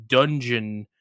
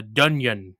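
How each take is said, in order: First: Said in the usual way. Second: "dunyon" with a y sound instead of the hard g; imitating a Swedish speaker saying "dunyon"; mispronounced dungeon. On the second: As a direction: say "dunyon", the g softened to a y. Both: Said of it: "a word like dungeon became, like, the dunyon".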